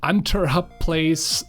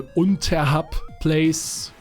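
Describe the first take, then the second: First: The name is said with English sounds. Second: The name is said with German sounds. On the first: "I call it Unterhub Place" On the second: "you would probably say Unterhub Place if it were German"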